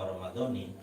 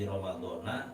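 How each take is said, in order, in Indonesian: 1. Kata ini berakhir dengan vokal 'i'. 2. Kata ini berakhir dengan vokal 'a'. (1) "maka yang paling benar adalah Ramadhani" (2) "fardhi Ramadhana apa Ramadhani"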